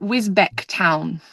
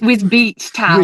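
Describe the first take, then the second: First: The second syllable has a short vowel. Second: The second syllable has a long ee vowel. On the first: The speaker calls it wrong. "I thought I pronounced it" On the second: The speaker calls it right. "I think it's ... Even though there's no E E C"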